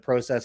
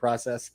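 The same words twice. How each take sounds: First: The word is said with a Canadian pronunciation. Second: The word is said with an American pronunciation. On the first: "there you hear the Canadian in me" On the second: "instead of process"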